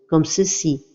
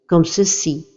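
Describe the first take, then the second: The two takes are said the same way.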